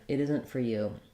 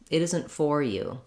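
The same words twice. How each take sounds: First: The stress falls on 'you'. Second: The stress falls on 'for'. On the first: "the you is the stressed word" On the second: "that's stressing on that for, it's making it too clear"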